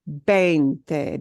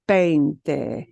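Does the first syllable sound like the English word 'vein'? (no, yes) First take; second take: yes; yes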